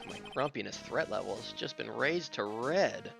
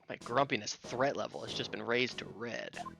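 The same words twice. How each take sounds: First: It is said in a plain, ordinary voice. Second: It is said in a put-on cartoonish old-man voice.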